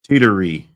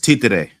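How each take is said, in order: First: The word is run together as teetery. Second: The word is split as T, then today. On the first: This is how most people say it. The speaker calls it wrong. "Everybody says teetery" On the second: This is the correct pronunciation. The speaker calls it right. "It's T today"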